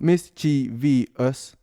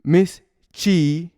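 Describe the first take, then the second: First: The word is said with four syllables. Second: The same.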